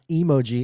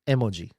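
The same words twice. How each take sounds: First: It is said the common American way. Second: It is said the Japanese way. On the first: The word is taken to come from emotions. The speaker calls it wrong. "It's not emoji" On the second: The word means picture plus word. The speaker calls it right. "it's emoji"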